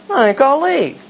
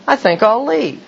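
First: Even higher, offended announcement; escalating mock-wounded pride; huffier exit. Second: Higher, offended announcement; mock-wounded pride; huffy exit. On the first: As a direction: repeat it pitched up further. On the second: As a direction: storm off in a huff, pitched up. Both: Huffy reply in retold scene.

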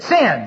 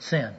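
First: "Sin" said clearly at full voice; said out loud. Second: The word "Sin" mumbled much softer, almost swallowed; barely audible mumble. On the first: After being told louder, finally says "Sin" clearly. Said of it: "That's it. That's more like it". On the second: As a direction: still mumbling "Sin", ashamed. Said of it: "You ain't got it yet". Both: Retold or imitated.

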